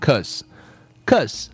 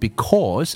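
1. 第一个音节被省略。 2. 这个词完整读出。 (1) "我读成cause" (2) "我没有读成because"

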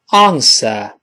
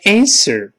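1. 这是用英式口音说的。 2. 这是用美式口音说的。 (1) "英国人说answer" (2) "美国人变成answer"

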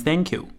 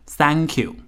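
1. 这句话是用地道的英语发音说的。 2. 这句话是用中式音节说的。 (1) "我不会把它念成thank you" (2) "我会念成thank you，因为教我们的老师也是这样发音的"

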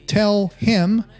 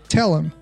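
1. 'him' 里的 h 要读出来。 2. 'him' 里的 h 省略不读。

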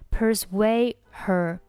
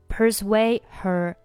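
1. persuade 末尾的 d 不发音。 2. persuade 末尾的 d 不发音。

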